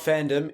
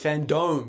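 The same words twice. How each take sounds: First: The second syllable sounds like 'dum'. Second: The second syllable sounds like 'dome'. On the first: The speaker calls it wrong. "it's not fandom" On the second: The speaker calls it right. "because they have a virtual dome"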